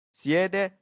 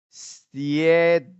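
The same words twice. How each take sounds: First: "Siete" run together quickly, higher pitched; quick and firm. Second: "siete" stretched and louder, sie... te; Spanish syllable by syllable. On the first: Teacher linking Spanish to Chinese ye, "Siete" quick and all together. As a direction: say "Siete" firmly in one short go. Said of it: "Read it quickly and firmly and all together". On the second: Teacher guessing how learners say Spanish seven, "siete" slowly divided. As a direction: draw out "siete" in two separated parts. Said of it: "I think you will say". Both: Shown as a demonstration.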